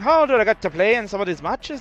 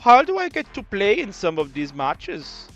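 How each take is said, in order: First: It is spoken in a put-on Irish accent. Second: It is spoken in a put-on German accent. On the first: "Maybe I should just stick to the Irish one" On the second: "Like my worst German accent ever"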